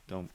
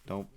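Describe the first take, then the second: The two takes are said the same way.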